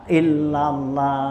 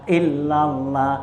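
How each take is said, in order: The two takes are said the same way.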